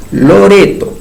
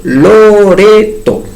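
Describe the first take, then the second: First: Said in the usual way. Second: Loreto split slowly into its syllables, Lo-re-to. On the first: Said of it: "en el caso de Loreto". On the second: Shown as a demonstration. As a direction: stretch Loreto out, one beat per syllable. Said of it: "tres sílabas". (Loreto dicho lento, sílaba por sílaba)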